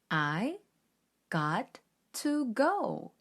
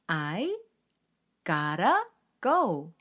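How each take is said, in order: First: Each word is said separately, in a choppy way. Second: 'Got to' is blended smoothly into 'gotta'. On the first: The speaker calls it wrong. "뚝뚝 끊어 읽으니 어딘가 어색하죠?" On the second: The speaker calls it right. "gotta 라고 발음을 하는"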